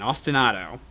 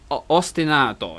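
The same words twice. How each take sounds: First: It is said with an American English pronunciation. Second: It is said with an Italian pronunciation. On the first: "in American English" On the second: "in Italian"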